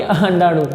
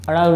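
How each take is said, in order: First: Said in the usual way. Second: अणाणु with the "nd" cluster dropped; the wrong form अणाणु, a bare ṇ in the middle; mispronounced word. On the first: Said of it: "अणाणु नहीं, अंडाणु". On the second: Shown as a demonstration. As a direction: say अणाणु, leaving out the ḍ sound. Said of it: "अणाणु नहीं".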